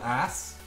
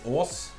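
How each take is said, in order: First: It is said with an English short 'a' vowel. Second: It is said with a long rounded Norwegian 'å' vowel. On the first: "it's called Ass in English" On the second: "in Norwegian it's Ås, not Ass"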